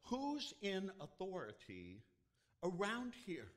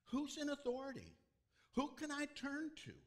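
First: High, loud plea for someone in charge; a lost man calling out loud; desperate cry. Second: Much higher, loud plea with stress on in; a lost man pleading louder; even more desperate cry. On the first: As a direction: call out desperately for help. Man crying out for help. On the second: Man crying out again. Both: Retold or imitated.

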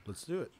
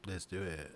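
First: Texas accent. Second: Said in the usual way. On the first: Shown as a demonstration. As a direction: say it like a native Texan. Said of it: "You almost sounded like you were native to Texas". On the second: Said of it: "You almost sounded like you were native".

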